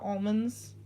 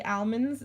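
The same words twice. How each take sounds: First: Said in the usual way. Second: Almonds with a short opening "al"; the first of two takes of almonds, al as in pal; British almonds. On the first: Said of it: "instead of almonds". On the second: Retold or imitated. Quoting some British people, British almonds. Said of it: "some British people say almonds instead of almonds".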